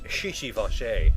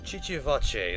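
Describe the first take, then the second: First: The name starts with a soft sh sound. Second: The name starts with a hard ch sound. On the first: "pronounced with a sh instead of the hard ch sound" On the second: "the hard ch sound"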